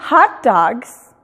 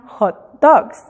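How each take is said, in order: First: "hot dogs" slow, in an American accent, like "hat daags"; English pronunciation. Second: "hot dogs" slow, the Mexican way, like "jot doks"; Spanish pronunciation. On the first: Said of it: "Y no es". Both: Shown as a demonstration.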